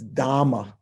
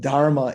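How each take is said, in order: First: A long m replaces the r sound. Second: An r sound is heard before the m. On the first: This is the simplified spoken Pali form. "it's dhamma" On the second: This is the classical Sanskrit form. "instead of dharma"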